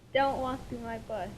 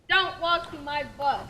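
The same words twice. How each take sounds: First: It is said in a nice, gentle tone. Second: It is said in a mean, harsh tone.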